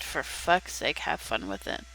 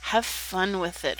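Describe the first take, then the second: First: Low, quiet exasperated grumble; exasperated mutter. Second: Said in the usual way. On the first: Real, not acted. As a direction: mutter it under your breath, fed up. Annoyed at something on screen.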